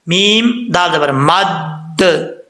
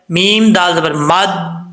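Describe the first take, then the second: First: The d sound is doubled and pressed hard. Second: The d sound is short and unstressed. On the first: The speaker calls it right. "जोर दे के पढ़ेंगे" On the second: The speaker calls it wrong. "ऐसे नहीं पढ़ना"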